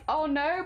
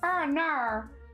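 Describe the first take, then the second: First: It is said in the speaker's ordinary accent. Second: It is said in an attempted Australian accent. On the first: "to sound like" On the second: "we were trying to get into an Australian accent"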